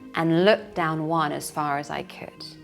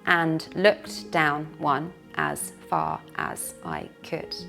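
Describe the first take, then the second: First: The words run together, linked smoothly. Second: Each word is said separately, not linked. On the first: The speaker calls it right. "But a native speaker connects them" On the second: The speaker calls it wrong. "A learner might say every word individually"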